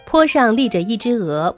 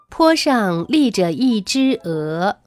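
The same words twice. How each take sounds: First: It is spoken at a somewhat quicker pace. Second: It is spoken slowly and carefully. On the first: "可以适当的加快语速。比如你可以这样来念" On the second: "大家记得要尽可能的把语速放慢"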